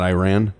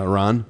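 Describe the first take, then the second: First: Iran said eye-RAN; mispronounced Iran. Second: Iran said ih-RAHN; correct pronunciation of Iran. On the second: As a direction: say Iran with a short first vowel and "rahn". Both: Shown as a demonstration. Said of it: "it's pronounced Iran".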